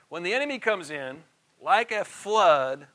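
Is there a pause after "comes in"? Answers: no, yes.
yes. There is a pause after "comes in". The speaker calls it right. "this particular translation should say it this way"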